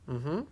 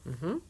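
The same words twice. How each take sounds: No difference in how they are said.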